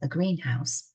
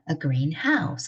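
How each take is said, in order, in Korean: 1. 강세는 green에 있습니다. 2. 강세는 house에 있습니다. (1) "온실이죠" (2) "초록색 집입니다"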